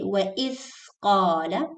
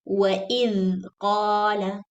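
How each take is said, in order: First: The 'dh' is breathy, like 'th' in thin. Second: The 'dh' buzzes, like 'th' in this. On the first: The speaker calls it wrong. "Don't say" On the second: The speaker calls it right. "Use the voice. Don't use the air. ... Say"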